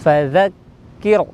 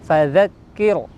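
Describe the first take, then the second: Both takes have the same delivery.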